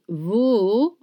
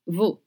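First: The vowel is dragged out long. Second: The vowel is kept short. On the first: The speaker calls it wrong. "it's not veau" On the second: The speaker calls it right. "all sh sounds are short"

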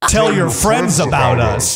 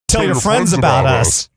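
First: It is said as a focused, forceful command. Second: It is said as a mild, casual command. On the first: The speaker calls it right. "let me focus my energy" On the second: The speaker calls it wrong. "Do the voice. Command them"

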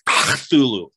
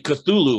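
First: The word is said harshly, almost like spitting. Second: The word is said plainly, without harsh spitting sounds. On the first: This is how the alien race would really say it. The speaker calls it right. "it's really like Cthulhu. It's almost like you got to spit" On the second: This is the common everyday pronunciation. The speaker calls it wrong. "people say Cthulhu a lot"

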